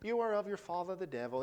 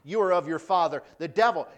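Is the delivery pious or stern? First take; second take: pious; stern. First: It is said in a mock-pious, put-on accent. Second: It is said in a stern, forceful plain voice. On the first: The line is treated as gentle religious recitation. The speaker calls it wrong. "We always read it so kind of pious and like, oh, ... In an English accent" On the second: The line is a harsh rebuke. The speaker calls it right. "This is like stern words"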